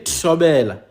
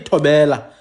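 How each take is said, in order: First: The first consonant is a strong, trilled t. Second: The first consonant is a plain t. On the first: The speaker calls it right. "you say tshobela. ... an advanced form of that t is t with an R" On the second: The speaker calls it wrong. "You don't say tobela"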